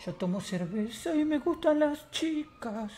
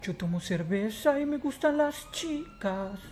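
First: Slow, soft put-on voice pitched higher; soft, high, drawn-out catchphrase; higher character catchphrase. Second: Slow, drawn-out put-on voice; soft, slow-motion character line; slow character catchphrase. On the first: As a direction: sing out the slogan high and slow.

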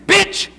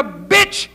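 First: Higher-pitched emphatic insult; repeated insult. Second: Man's curt insult. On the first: Preacher defiantly repeating the man's word to the audience, emphatic insult. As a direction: throw the word out high. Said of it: "I say it again". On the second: Man answering a woman who says she's pregnant, curt insult. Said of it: "that's the way he talk". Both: Acted.

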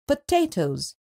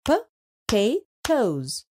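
First: Said in the usual way. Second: Potatoes drawn out slowly, syllable by syllable. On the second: Shown as a demonstration. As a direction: stretch potatoes into its parts. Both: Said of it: "Split up the given words into syllables".

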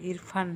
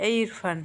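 First: Said in the usual way. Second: Louder, higher call up the house. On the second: Acted. Mother calls her son Irfan from downstairs, loudly. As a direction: call him sharply from below.

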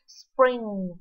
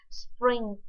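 First: Spring said with a clear final ng; ng ending. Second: Sprint said with a sharp final t. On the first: Teacher sets Spring against sprint by the final sound. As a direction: end Spring on a ringing ng. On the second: Teacher sets sprint against Spring by the final sound. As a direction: close sprint on a crisp t. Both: Shown as a demonstration. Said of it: "phụ âm cuối cùng, đó là âm G và âm T".

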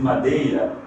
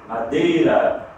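First: "madeira" with the "ei" glide; Portuguese diphthong in "madeira". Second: "madeira" with a pure e, drawn out slowly; Spanish single E in "madeira"; Spanish madera. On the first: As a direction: say "madeira" as ma-DAY-ra. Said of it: "em português madeira". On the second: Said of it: "em espanhol bandeira". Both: Shown as a demonstration.

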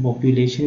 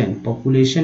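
First: "पॉपुलेशन" with a y-glide, po-pyu-lay-shun; variant pronunciation. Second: "पॉपुलेशन" with a plain oo, po-pu-lay-shun; variant pronunciation. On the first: Teacher giving the other accepted variant, "पॉपुलेशन" with pyu. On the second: Teacher giving an accepted variant, "पॉपुलेशन" with plain oo. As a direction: say "पॉपुलेशन" with no y sound after the p. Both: Shown as a demonstration. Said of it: "पॉपुलेशन भी बोलते हैं".

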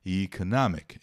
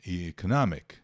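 First: Economic said as ee-ko-NOM-ic; British economic, first vowel long; British pronunciation. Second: Economic said as eh-ko-NAH-mic; American economic, open middle vowel; American pronunciation. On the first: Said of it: "No inglês britânico". (economic no inglês britânico) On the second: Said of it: "no inglês americano". (economic no inglês americano) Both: Shown as a demonstration.

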